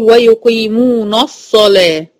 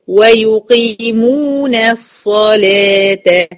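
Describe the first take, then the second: First: "ويقيمون الصلاة" with the final na darkened to a heavy "no"; wrongly heavy noon. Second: "ويقيمون الصلاة" chanted slowly with thin "nas"; light noon, heavy saad. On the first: Teacher shows the forbidden reading, "ويقيمون الصلاة" with heavy "nos-salah". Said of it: "ما ينفعش أقول". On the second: Teacher models correct recitation, "ويقيمون الصلاة" slow with light noon. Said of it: "من النون المرققة على الصاد المفخمة". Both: Shown as a demonstration.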